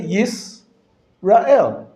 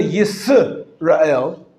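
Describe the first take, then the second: First: Yisrael with no vowel after the s, yis-rael, slow; correct Hebrew stop. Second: Yisrael with an added vowel, yi-se-ra-el, slow; wrong Hebrew syllable. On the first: Teacher showing students the correct Yisrael. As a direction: close the syllable on the s in Yisrael. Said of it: "You say". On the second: Teacher showing students the wrong Yisrael. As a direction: put a vowel after the s in Yisrael. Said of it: "You don't say". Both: Shown as a demonstration.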